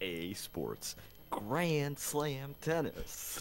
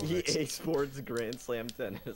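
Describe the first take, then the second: First: It is said with lively, energetic feeling. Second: It is read out plainly, without much feeling.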